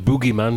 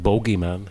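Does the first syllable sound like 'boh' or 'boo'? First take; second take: boo; boh. First: The first syllable has an 'oo' vowel. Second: The first syllable has an 'oh' vowel. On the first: This is the American way of saying it. "c'est les Américains qui disent le boogeyman" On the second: This is the English way of saying it. "en Angleterre, c'est le bogeyman"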